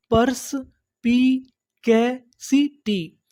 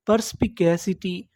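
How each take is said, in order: First: "परस्पिकैसिटी" very slowly with gaps between the pieces; broken into syllables. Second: Said in the usual way. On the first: Shown as a demonstration. Teacher building up a new word for learners, syllable by syllable. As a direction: sound out "परस्पिकैसिटी" chunk by chunk. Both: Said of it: "टुकड़ों में तोड़-तोड़ के पढ़ना है".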